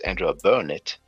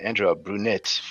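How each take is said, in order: First: The surname begins with a 'bur' sound. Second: The surname begins with a 'brew' sound. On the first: The speaker calls it right. "but it's Andrea Burnett" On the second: The speaker calls it wrong. "I've been saying Andrea Brunette for I don't know how long"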